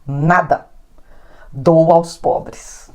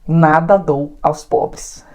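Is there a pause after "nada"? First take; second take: yes; no. First: It is said with a pause after nada. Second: It is said with no pause after nada.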